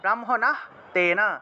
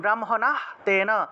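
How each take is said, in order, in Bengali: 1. এটা দুই ভাগে ভেঙে বলা হয়, tena-র আগে h আছে। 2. এটা দুই ভাগে ভেঙে বলা হয়, tena-র আগে h আছে।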